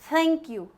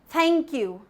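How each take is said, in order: No difference in how they are said.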